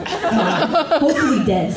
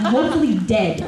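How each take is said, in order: First: "Hopefully dead" drawn out slowly; slow emphatic repeat. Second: Said in the usual way. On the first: Retold or imitated. Child answering mom about the squirrel, "Hopefully dead" slow and emphatic. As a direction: stretch "Hopefully dead" word by word.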